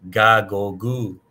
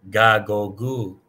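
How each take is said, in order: The two takes are said the same way.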